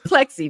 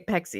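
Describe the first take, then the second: First: An L sound follows the P. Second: No L sound follows the P. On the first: "it's plexi" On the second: "but you say pexi"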